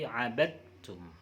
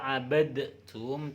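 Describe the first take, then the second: First: The d merges straight into the t. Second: The d is released separately before the t. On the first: The speaker calls it right. "tapi abadtum" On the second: The speaker calls it wrong. "Tidak dibaca abadtum"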